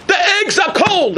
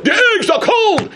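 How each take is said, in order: First: High laughing mock yell; hammed-up cry of complaint, laughing; a diner griping, laughing. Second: Higher, laughing mock yell; mock complaint. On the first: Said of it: "I hear a guy scream". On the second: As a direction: pile on the gripe, higher and laughing. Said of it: "the next guy says".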